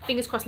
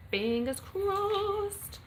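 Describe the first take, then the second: First: Said in the usual way. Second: Very slow, high, stretched good-luck wish; drawn-out sing-song. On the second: Pretend. Streamer wishing Millie luck in the competition, high drawn-out sing-song.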